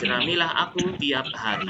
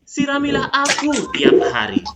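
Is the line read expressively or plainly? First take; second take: plainly; expressively. First: It is read plainly without rhythm or melody. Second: It is read expressively with rhythm and melody.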